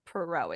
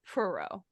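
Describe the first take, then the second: First: The stress is on the second syllable. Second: The stress is on the first syllable. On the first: The speaker calls it wrong. "not not Perot" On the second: The speaker calls it right. "I think the emphasis is on the first part of Perot"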